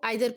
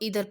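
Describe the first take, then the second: First: The first vowel sounds like 'eye'. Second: The first vowel sounds like 'ee'. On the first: "बहुत सारे लोग इसको आइदर पढ़ते हैं" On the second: "बहुत सारे लोग इसको इधर पढ़ते हैं"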